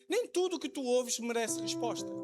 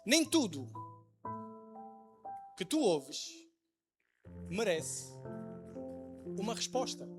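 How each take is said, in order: First: It is said at normal speed. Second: It is said more slowly.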